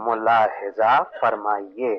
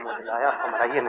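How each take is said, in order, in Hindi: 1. ये आवाज़ें साफ़ 'mulahiza farmaiye' जैसी हैं। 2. ये आवाज़ें 'mujhlaya famraiye' जैसी बिगड़ी हुई हैं।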